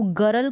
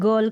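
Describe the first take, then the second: First: "गरल" with a full r, as two syllables; full-r mispronunciation. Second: "गर्ल" as one syllable, r barely sounded; half-r pronunciation. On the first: Teacher showing learners the wrong reading, "गरल" with full r. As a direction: say "गरल" with the r fully sounded. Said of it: "गरल करके पढ़ेंगे तो". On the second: Teacher modelling the correct reading, "गर्ल" with half r. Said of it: "आधा ही र का उच्चारण करें". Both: Shown as a demonstration.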